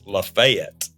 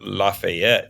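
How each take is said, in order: First: It is said with the local Southern pronunciation. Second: It is said with the usual standard pronunciation. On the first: The speaker calls it right. "it's Lafayette" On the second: The speaker calls it wrong. "is not Lafayette"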